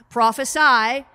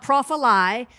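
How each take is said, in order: First: The last syllable sounds like 'sigh'. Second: The last syllable sounds like 'see'. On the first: The speaker calls it right. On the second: The speaker calls it wrong.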